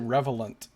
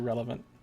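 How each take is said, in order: First: The word's consonant sounds come out mixed up. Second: The word's consonant sounds come out in standard order. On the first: The speaker calls it wrong. "I couldn't say the word relevant. I would always say relevant" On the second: The speaker calls it right. "Now I say relevant"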